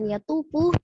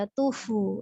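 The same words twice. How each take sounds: First: The f is said plainly, without a blowing sound. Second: The f is said with lips blowing out air. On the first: The speaker calls it wrong. "jangan yatufu" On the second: The speaker calls it right. "tapi yatufu ya. Jadi dua bibirnya seperti meniup"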